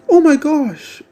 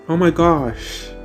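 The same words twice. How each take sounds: First: It is said in a put-on mocking voice. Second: It is said in the speaker's normal voice.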